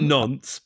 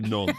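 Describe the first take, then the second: First: The word ends with an audible s sound. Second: The word ends without any s sound. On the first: The speaker calls it wrong. "not quite nonce" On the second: The speaker calls it right. "but like non"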